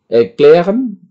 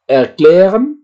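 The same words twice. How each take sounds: First: Erklären repeated, level and firm; repeated model word. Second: Erklären with a questioning rise; German model word. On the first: Teacher repeats word firmly for class. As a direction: say Erklären once more, steady. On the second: Teacher to class: rising model word. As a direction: present Erklären for learners to repeat. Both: Shown as a demonstration. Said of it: "ini Vorsilbenya".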